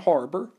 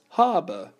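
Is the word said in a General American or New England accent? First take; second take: General American; New England. First: It is said in a General American accent. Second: It is said in a New England accent. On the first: "instead of saying harbor" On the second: "a New Englander says harbor"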